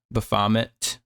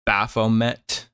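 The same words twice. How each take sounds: First: Baphomet as buh-FAH-mit, rising; Baphomet with short ends, "buh-FAH-mit?"; alternative pronunciation. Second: Baphomet as BAFF-oh-met, slowly; Baphomet in three slow beats, "BAFF-oh-MET"; pronunciation attempt. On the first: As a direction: try Baphomet with stress on FAH. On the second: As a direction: sound out Baphomet with an F and long O. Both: Shown as a demonstration. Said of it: "How the hell do you say that".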